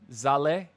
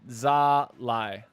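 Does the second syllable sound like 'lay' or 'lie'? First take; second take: lay; lie. First: The second syllable rhymes with 'lay'. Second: The second syllable rhymes with 'lie'. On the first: "Like lay down, Zale" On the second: "Like lie down"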